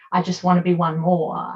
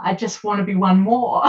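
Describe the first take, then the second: First: Said in the usual way. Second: Tearful. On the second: Real, not acted. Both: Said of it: "I get very emotional".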